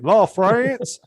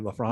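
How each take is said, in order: First: It is said in a Mississippi accent. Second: It is said in a polished, educated accent.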